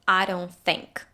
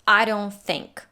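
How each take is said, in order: The two takes are said the same way.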